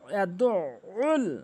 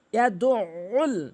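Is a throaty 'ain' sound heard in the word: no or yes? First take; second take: yes; yes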